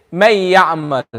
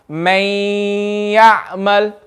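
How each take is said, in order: First: MAY YA'MAL with no held nasal hum; wrong, without gunna. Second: MAY YA'MAL with a long nasal hum after MAY; with gunna. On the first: Teacher shows the class a wrong reading, without gunna. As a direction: say may ya'mal short, without humming through the nose. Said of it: "this is me reading it wrong". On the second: Teacher shows the class the difference, held nasal gunna. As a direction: hold may very long through the nose before ya'mal. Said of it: "push out sound from the nose". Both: Shown as a demonstration.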